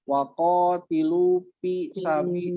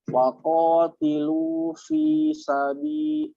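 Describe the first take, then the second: First: The vowel of fi is cut short. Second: The vowel of fi is held for two beats. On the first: The speaker calls it wrong. "Kalau Ibu hanya waqatilu pi sabi, itu salah" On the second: The speaker calls it right. "maka dibacakan dua ketukan"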